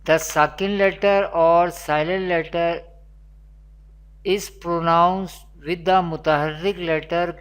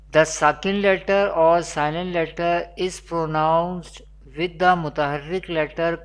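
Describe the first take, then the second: No difference in how they are said.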